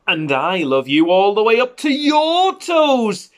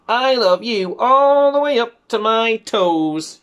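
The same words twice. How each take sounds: First: High, loud climb peaking on "your"; stress on YOUR. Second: High, slow, louder, with "all" stretched; stress on ALL. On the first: Big hare answering little hare, "your" punched high. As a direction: build to a high, long "your", then drop on "toes". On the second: Little hare upside down declaring love, "all" drawn out high. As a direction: draw out "all" and ease down to "my toes". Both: Acted.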